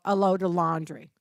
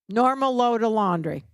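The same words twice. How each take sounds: First: Said in the usual way. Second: Normal said louder, falling at the end; stress on Normal. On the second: Shown as a demonstration. Nurse clarifying to trainees, stress on Normal. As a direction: lean on the word Normal.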